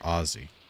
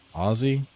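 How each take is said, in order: First: The middle consonant is a hissing s sound. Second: The middle consonant is a buzzing z sound.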